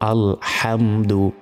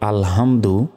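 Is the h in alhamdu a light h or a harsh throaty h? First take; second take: harsh h; light h. First: The h is a harsh sound from the throat. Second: The h is a light, plain breathy sound. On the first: It means praise. The speaker calls it right. "সহি শুদ্ধভাবে বলতে হবে আলহামদু" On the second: It means to be destroyed. The speaker calls it wrong. "এখানে যদি আমরা বলি আলহামদু তাহলে ভুল হয়ে যাবে"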